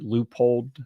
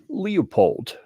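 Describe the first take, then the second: First: The name begins with a 'loo' sound. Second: The name begins with a 'lee' sound. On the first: The speaker calls it right. "the proper pronunciation, which is more like uh, like you'd spell it L O O P O L D" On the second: The speaker calls it wrong. "I find it entertaining to call this company Leopold"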